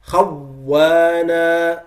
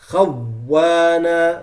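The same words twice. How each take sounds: Both takes have the same delivery.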